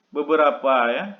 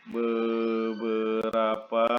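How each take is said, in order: First: Said in the usual way. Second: Beberapa drawn out very slowly, syllable by syllable; slow dictation. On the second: Shown as a demonstration. Teacher spelling out a term for students, very slow. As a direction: stretch Beberapa out as if writing it on the board. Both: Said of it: "teacher repeats word for writing".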